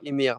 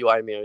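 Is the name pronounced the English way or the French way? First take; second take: French; English. First: The name is pronounced the French way. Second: The name is pronounced the English way. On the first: "in French we say" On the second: "the correct translation for English would be"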